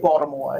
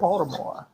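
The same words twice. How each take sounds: First: The T sound in the middle is dropped. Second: The T sound in the middle is pronounced. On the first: The speaker calls it wrong. "I never say Baltimore" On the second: The speaker calls it right. "I always do"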